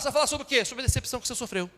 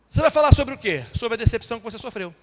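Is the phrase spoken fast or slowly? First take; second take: fast; slowly. First: It is spoken fast, with syllables clipped. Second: It is spoken slowly, with syllables clear. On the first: The speaker calls it wrong. "eu já estou quase comendo sílaba" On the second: The speaker calls it right. "Deixa eu falar mais devagar"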